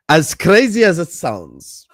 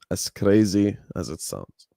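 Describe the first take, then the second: First: Slow, loud "as crazy as it sounds" with weight on "crazy"; slow emphatic phrase. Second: "as crazy as it sounds" said low and soft, slow; low, quiet repeat. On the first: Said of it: "repeats the phrase, slowed". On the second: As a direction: drop it low and let "crazy" sink. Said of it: "repeats the phrase, low and quiet". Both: Shown as a demonstration.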